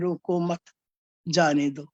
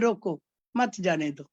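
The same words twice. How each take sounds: First: The pause comes after the second word. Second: The pause comes after the first word. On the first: Do not stop them; let them go. "वही विश्राम मत के" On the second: Stop them; do not let them go. "विश्राम मत के की जगह रोको पे लगा दिया"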